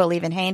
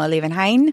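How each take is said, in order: First: Liebenhain finished with "hayn"; long A in the last syllable of Liebenhain; HAYN ending. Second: Liebenhain finished with "hine"; long I in the last syllable of Liebenhain; HINE ending. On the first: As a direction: make the end of Liebenhain rhyme with "lane". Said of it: "if you know where a Liebenhain is". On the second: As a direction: make the end of Liebenhain rhyme with "line". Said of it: "If you know a Liebenhain". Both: Shown as a demonstration.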